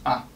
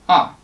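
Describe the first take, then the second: First: The syllable is short, light and lazy. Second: The pitch starts high and drops sharply. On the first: "lazy, short" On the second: "starting high, drop sharply"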